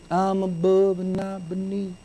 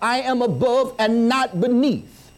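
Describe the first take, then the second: First: It is said weakly, without confidence. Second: It is said firmly, with confidence. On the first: The speaker calls it wrong. "You're not going to say it like that" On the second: The speaker calls it right. "You're going to say it with confidence"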